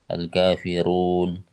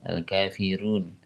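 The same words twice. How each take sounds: First: The r is heavy, with lips fully rounded. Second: The r is light, with lips barely rounded. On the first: "tapi ketika tebal dia manyunnya sempurna" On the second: "Kalau Waras ada ada yang dibaca tarkik gitu ya"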